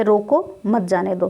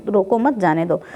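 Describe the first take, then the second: First: रोको set apart by a pause, then मत जाने दो together; pause after रोको. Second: रोको मत run together, then जाने दो; मत joined to रोको. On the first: Teacher showing the first reading of a double-meaning sentence, pausing after रोको. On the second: Teacher showing the second meaning of the sentence, saying रोको मत as one unit. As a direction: keep मत with रोको, no break after रोको. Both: Shown as a demonstration. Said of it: "दोबारा इसका अर्थ क्या लगा दिया गया".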